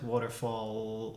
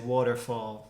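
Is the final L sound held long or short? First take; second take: long; short. First: The final L sound is held and exaggerated. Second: The final L sound is short and normal.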